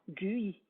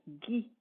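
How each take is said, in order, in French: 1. Le u se prononce comme une voyelle séparée. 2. Le u est muet, ce qui donne un g dur. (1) "On n'entendra pas" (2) "Cette lettre sera muette"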